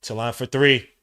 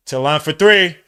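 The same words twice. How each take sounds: First: Said in the usual way. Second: Loud emphatic call of three; louder announcer-style repeat. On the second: Real, not acted. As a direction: call it out with force.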